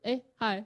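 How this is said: The greeting sounds flat and unenthusiastic.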